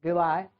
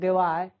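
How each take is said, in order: Both takes have the same delivery.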